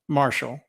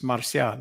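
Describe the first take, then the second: First: The name sounds like the English word Marshall. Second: The name is said with Spanish sounds. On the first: This is how the locals commonly say it. The speaker calls it wrong. "They all pronounce it" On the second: This is the name's original Spanish form. The speaker calls it right. "But it's Marcial. It's a Spanish name"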